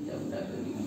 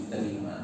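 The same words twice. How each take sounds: First: Breathy whisper, resigned husband; whispered acceptance. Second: Said in the usual way. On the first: Retold or imitated. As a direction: give in under your breath. Calm husband accepting his wife.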